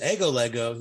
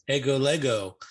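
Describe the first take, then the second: First: "ego" lifted and punched, "lego" falling away; stress on ego. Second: "ego" punched, "lego" lighter; stress on ego. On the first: Shown as a demonstration. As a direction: hit "ego" to show the emphatic pronoun. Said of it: "but when he says". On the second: Retold or imitated. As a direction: lean on the word "ego" to make it emphatic. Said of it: "this is what I say".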